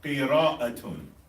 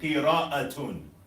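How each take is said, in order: First: The word ends with a full -atun ending. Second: The same.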